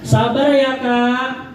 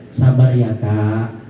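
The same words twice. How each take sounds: First: It is said in a tone that provokes anger. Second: It is said in a soft, sympathetic tone. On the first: The listener feels dismissed and gets angry. The speaker calls it wrong. "Kadang orang bilang sabar, kita juga marah" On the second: The listener feels comforted and does not get angry. The speaker calls it right. "Kalau begini caranya ... Biasanya ini gak marah ini"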